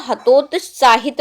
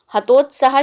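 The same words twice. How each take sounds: First: हतोत्साहित said as ha-tot-saa-hit, ending on hit; correct form demo. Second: हतोत्साह said as ha-tot-saah, ending on aah; wrong form demo. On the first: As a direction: say हतोत्साहित in full, with the final hit. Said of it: "हतोत्साहित word होगा". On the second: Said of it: "हतोत्साह शब्द नहीं होगा". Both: Shown as a demonstration.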